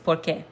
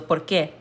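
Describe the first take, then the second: First: The stress falls on the first part, por. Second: The stress falls on the second part, qué. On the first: It gives a reason: because. "that is an answer" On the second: It asks a question: why. "you're emphasizing que"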